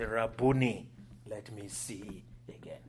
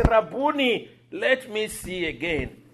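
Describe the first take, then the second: First: Hushed, fading to a whisper; quiet retold plea. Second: High, raised, deliberate plea; clear retold plea. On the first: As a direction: plead softly and low, trailing into a whisper. First quote of blind man's plea. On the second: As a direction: call it out clearly, higher and louder. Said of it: "But it was so clear".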